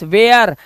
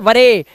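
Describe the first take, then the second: First: The word is said as one syllable, ware. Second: The word is said as two syllables, wa-re. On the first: The speaker calls it right. "It's वेयर" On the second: The speaker calls it wrong. "और it's not वरे"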